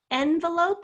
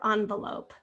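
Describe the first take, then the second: First: First syllable of envelope as short E. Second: First syllable of envelope as AHN. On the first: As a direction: say envelope starting like the letter N. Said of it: "Which one do you say?". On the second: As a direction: say envelope starting like the word on. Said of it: "People say things differently too". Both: Shown as a demonstration.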